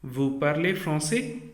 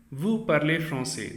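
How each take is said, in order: First: "français" lifted at the end as a question; rising question intonation. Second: "français" said level, closing as a statement; statement intonation. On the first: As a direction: ask it by raising the last word, "français". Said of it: "raise the last word of this sentence". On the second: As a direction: say "Vous parlez français" as a plain statement, no lift on "français". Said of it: "This is a sentence". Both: Shown as a demonstration.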